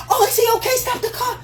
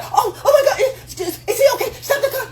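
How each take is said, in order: First: High, worried falsetto woman; caring woman voice. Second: Very high panicked falsetto through laughter; caring woman voice. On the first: Telling men what a nurturing woman sounds like, in a high worried falsetto. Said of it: "A nurturer would be". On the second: Describing the woman to wife up, in a panicked high falsetto with laughter. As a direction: shriek it, laughing, like a frantic woman. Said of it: "The one that's like". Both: Retold or imitated.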